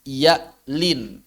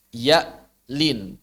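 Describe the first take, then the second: No difference in how they are said.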